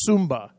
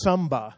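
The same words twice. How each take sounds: First: "Sumba" with an uh sound in the first syllable; corrected name. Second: "samba" said with a plain a, like the dance; "samba", first go, a misspoken name; wrong name. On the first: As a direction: fix it to "Sumba", the island. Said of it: "that is samba". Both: Real, not acted.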